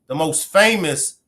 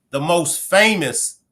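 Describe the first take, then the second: No difference in how they are said.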